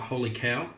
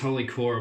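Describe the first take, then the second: First: The second word rhymes with 'now'. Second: The second word rhymes with 'more'. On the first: The speaker calls it right. "it's meant to be Holy Cow" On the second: The speaker calls it wrong. "Thought it was Holy Core. I've been saying it wrong"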